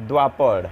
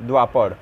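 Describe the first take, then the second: The two takes are said the same way.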